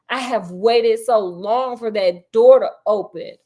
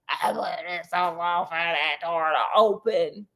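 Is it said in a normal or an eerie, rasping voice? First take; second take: normal; eerie. First: It is said in a normal voice. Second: It is said in an eerie, rasping voice.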